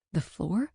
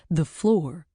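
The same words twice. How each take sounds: First: "floor" rising, unsure; puzzled question. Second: "floor" falling flat and firm; confirming. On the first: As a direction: ask "The floor?" rising in disbelief. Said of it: "Yeah, the floor". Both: Acted.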